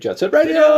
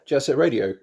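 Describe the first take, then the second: First: The name is said in an exaggerated, put-on voice. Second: The name is said in a plain, ordinary voice.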